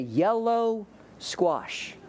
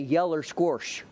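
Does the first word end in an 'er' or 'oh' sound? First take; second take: oh; er. First: The first word ends in an 'oh' sound. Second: The first word ends in an 'er' sound. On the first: "I say yellow squash" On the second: "I don't say yeller squash"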